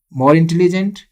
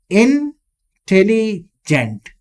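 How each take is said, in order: First: Said in the usual way. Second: "Intelligent" slowly broken into separate chunks; syllable by syllable. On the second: Shown as a demonstration. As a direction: draw out "Intelligent" piece by piece, with gaps. ("Intelligent" को धीरे-धीरे टुकड़ों में तोड़कर) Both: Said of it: "three syllable".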